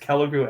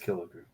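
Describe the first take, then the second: First: The first syllable sounds like 'kel'. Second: The first syllable sounds like 'kill'. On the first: "It's Kelligrew" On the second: "and it's Killigrew"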